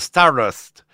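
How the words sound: The name is said with an English pronunciation. The speaker calls it right. "per gli amici che parlano la lingua inglese"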